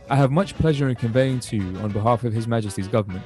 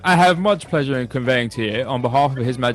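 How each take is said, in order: First: It is read in his normal voice. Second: It is read in a put-on posh voice.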